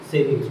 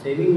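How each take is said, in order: First: सेविंग्स with a final s; plural सेविंग्स. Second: सेविंग ending on ng, no s; singular सेविंग. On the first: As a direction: end सेविंग्स on a clear ngs. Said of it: "सेविंग्स होता है". (सेविंग्स, आख़िर में स के साथ) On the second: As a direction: say सेविंग without the final s. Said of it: "सेविंग नहीं होता". (सेविंग, आख़िर में स के बिना) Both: Shown as a demonstration.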